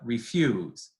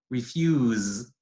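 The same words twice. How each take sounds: First: The final fricative is devoiced. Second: The final fricative is fully voiced. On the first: The speaker calls it right. "devoiced word finally" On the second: The speaker calls it wrong. "not refuse"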